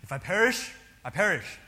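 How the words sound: It is said boldly and with confidence. The speaker is sure and unafraid. The speaker calls it wrong. "with such confidence and fearlessness"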